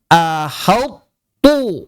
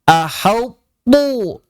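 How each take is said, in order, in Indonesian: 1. Seluruh kata terdengar tebal, termasuk akhirannya. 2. Bunyi h di awal dibuat tebal. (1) "itu jadi tebal semua, jadi to" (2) "atau haknya jadi tebal"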